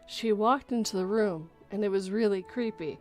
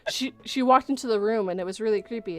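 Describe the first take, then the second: First: It is read slowly and expressively, like storytelling. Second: It is read quickly and flatly, rushing through. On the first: The reader is telling a story. The speaker calls it right. "Same words, differently said" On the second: The reader is just getting through the text. The speaker calls it wrong. "Instead of going"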